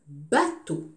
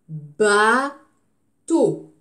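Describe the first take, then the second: First: The word is said smoothly in one piece. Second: The word is split into separate syllables.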